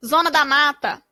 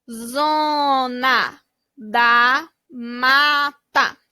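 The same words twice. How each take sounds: First: Said in the usual way. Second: Very slow "Zona da Mata", every vowel held long; slow stretched reading. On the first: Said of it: "title read before syllables". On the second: Shown as a demonstration. Teacher reads the blended name slowly to kids. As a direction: draw each syllable out for the class. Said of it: "blending syllables into the word".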